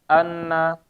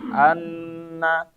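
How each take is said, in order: First: The nasal n is held only briefly. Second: The nasal n is held noticeably longer. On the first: The speaker calls it wrong. "nah ini nggak nyampe" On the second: The speaker calls it right. "dia dipanjangin lagi"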